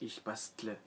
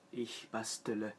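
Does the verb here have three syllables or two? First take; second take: two; three. First: No extra vowel is added inside the verb. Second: An extra vowel is added inside the verb. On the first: "au lieu de" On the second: "on peut rajouter un E vocalique qui soignera et facilitera la prononciation"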